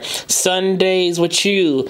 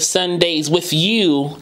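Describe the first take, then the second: First: 'With you' is joined with a ch sound. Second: 'With you' is joined with a th sound. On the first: "It sounded like a CH there" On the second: "that's like a TH"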